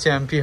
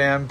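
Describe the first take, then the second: First: The word begins with a 'ch' sound. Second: The word begins with a vowel sound. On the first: This is how the speaker usually says it. "আমার উচ্চারণ তো চ্যাম্পি হয়" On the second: This is how people here seem to say it. "এদিকে জানি না এটা কি বলে, অ্যাম্প না কি বলে"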